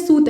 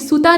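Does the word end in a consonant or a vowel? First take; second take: consonant; vowel. First: The word ends on the consonant t sound. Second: The word ends with an added final a vowel. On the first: The speaker calls it right. "सूत है" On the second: The speaker calls it wrong. "ये सूता नहीं है"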